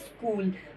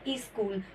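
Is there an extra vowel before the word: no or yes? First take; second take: no; yes. First: The word starts directly with the s sound. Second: An extra e vowel precedes the s sound. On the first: The speaker calls it right. "बच्चे ने बोलना है स्कूल" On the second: The speaker calls it wrong. "जो ई होता है उसको बच्चा extra add कर देता है"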